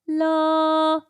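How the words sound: The voice is clear with little air. "not much air sound"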